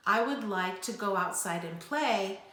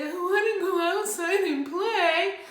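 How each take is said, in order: First: Said in the usual way. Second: Put-on high, loud childish whine; whining. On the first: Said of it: "whining sounds like this". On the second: Shown as a demonstration. Parent demonstrating to kids what whining sounds like. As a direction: whine it like a kid begging. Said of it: "And whining sounds like this".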